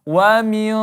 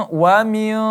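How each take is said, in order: The two takes are said the same way.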